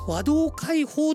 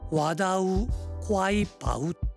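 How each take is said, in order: First: The last syllable is pronounced 'hou'. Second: The last syllable is pronounced 'pau'. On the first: This is one modern reading. "和銅開放と言っていいのか" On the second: This is the likely pronunciation in the 700s. "700 年代に当時の発音で言えばこんな風に発音されていたんではないかと思います"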